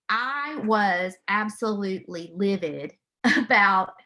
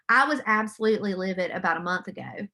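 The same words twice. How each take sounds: First: Laughing through the word livid, slowed down; a rueful laugh while admitting she was livid. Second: Said in the usual way. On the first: Real, not acted. Mother laughing to her audience about being livid.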